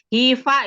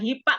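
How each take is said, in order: First: The middle consonant is an f sound. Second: The middle consonant is a p sound. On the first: The speaker calls it right. "HIFA ya" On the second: The speaker calls it wrong. "jangan HIPA kayak orang Sunda gitu"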